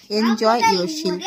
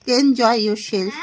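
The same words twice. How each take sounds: First: Said in the usual way. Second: Laughing. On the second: Shown as a demonstration. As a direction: say "Enjoy yourself" through a light laugh. Repeats phrase, second take laughing.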